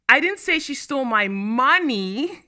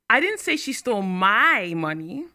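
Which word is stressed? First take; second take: money; my. First: The word money is stressed. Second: The word my is stressed.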